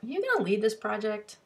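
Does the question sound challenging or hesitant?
hesitant. The question sounds tentative and hesitant. The asker wants to lead and fears the other will. "the person who's trepidate"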